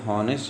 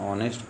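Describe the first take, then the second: First: The word begins with an h sound. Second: The word begins with a vowel sound. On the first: The speaker calls it wrong. "हम इसको हॉनेस्ट नहीं पढ़ते" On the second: The speaker calls it right. "बल्कि क्या पढ़ते हैं, ऑनेस्ट पढ़ते हैं"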